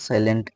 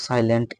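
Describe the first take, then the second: No difference in how they are said.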